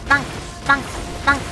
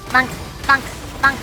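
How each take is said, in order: Both takes have the same delivery.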